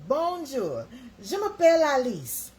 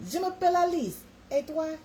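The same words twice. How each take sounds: First: High, loud mock French introduction; schoolbook French. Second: Even higher, lilting mock French; schoolbook French. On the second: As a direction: show off high-school French, sweeter. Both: Shown as a demonstration. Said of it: "French was mine".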